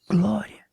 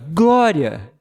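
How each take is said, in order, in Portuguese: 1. A palavra é dita baixo, como se estivesse longe. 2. A palavra é dita alto e por inteiro.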